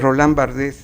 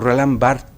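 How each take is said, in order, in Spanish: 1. El apellido se pronuncia como se escribe. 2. El apellido se pronuncia distinto de como se escribe. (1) "perdón" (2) "esa es la pronunciación correcta"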